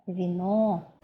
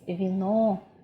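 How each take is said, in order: No difference in how they are said.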